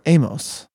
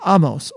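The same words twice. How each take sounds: First: The name is said the English way. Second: The name is said the Hebrew way.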